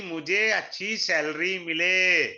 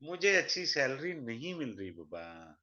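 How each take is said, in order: First: Loud, drawn-out mimicry of a job-hopper; slow, emphatic mock longing; mock eager wish. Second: Low, soft mimicry of a grumbler; mock plaintive complaint. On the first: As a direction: stretch it out loudly, mocking his wish. Mimics job-hopper wanting a salary. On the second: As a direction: sink into a mock-helpless plea. Mimics job-hopper complaining to a baba.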